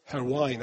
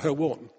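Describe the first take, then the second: First: The name is said in a Welsh-style pronunciation. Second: The name is said in an English-style pronunciation. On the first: The speaker calls it right. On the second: The speaker calls it wrong. "If you're Welsh, I know that's not pronunciation"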